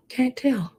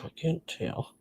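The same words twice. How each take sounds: First: Whispered through a wheeze; breathless wheezing whisper, pitched up; wheezy whisper. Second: Very soft, wheezing breath; words squeezed out between wheezes; wheezy voice. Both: Real, not acted. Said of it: "I'm wheezing".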